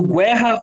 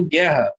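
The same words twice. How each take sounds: First: Guerra said as gwe-rra, with a W glide; U sounded. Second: Guerra with hard G straight into E; silent U. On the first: Teacher testing for a digraph, guerra with U sounded. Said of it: "Tem o dígrafo?". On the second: Teacher giving the right option, guerra with silent U. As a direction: leave the U of guerra silent, ghe-rra. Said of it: "ou eu falo guerra". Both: Shown as a demonstration.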